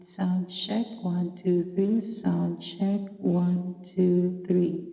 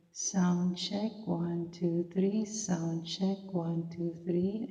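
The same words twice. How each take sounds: First: Bass turned up on the mic; bass boost. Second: Treble turned up on the mic; treble boost. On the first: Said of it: "At yung bass naman". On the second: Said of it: "Ayan po yung treble". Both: Shown as a demonstration.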